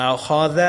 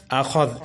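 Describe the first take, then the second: First: آخاذ with final "-za" vowel sounded; unstopped form. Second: اخذ stopped on a vowelless z; pausal form. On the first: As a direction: finish آخاذ on an open "a". (آخاذ کے آخری ذال پر زبر پڑھیں) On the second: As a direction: drop the last vowel of اخذ. (اخذ کے آخری ذال کو ساکن کر کے رکیں) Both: Shown as a demonstration. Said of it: "آگے وقف".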